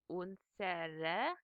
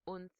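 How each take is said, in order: First: The word is said with three syllables. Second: The word is said with two syllables. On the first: "instead of unsere" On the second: "you would have"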